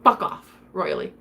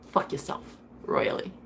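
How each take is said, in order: First: Said in the usual way. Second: A breathy whispered curse; hushed whispered send-off. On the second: Retold or imitated. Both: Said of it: "I'm just the type to say".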